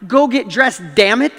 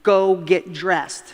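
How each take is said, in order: First: Retold rising anger. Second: Slow, measured command at usual pitch; a dad's first, controlled instruction, spaced out; retold parental order. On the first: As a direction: re-enact losing patience, punching it out louder. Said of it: "I was starting to get mad". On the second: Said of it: "my gut instinct was".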